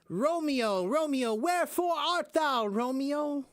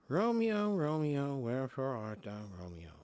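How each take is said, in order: First: It is said loudly, projected to the back. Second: It is said quietly, without projection.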